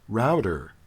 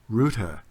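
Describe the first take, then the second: First: It is said with an American pronunciation. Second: It is said with a British pronunciation.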